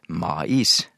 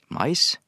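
First: It is split into two separate syllables. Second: It is one syllable with a diphthong. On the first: The speaker calls it wrong. "Ikke to stavinger" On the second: The speaker calls it right. "men som en diftong"

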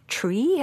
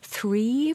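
First: The word begins with a t sound. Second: The word begins with a th sound. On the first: The speaker calls it wrong. "blir for eksempel these og tree" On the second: The speaker calls it right. "Han har problemer med TH"

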